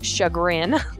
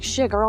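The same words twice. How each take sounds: First: It is said with an American accent. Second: It is said with a French accent. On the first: The speaker calls it wrong. "that's so American" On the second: The speaker calls it right. "it just sounds so fancy"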